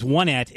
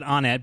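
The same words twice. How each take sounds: First: The first syllable sounds like the word 'one'. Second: The first syllable does not sound like 'one'. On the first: The speaker calls it right. "because it is Onet" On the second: The speaker calls it wrong. "I said Onet"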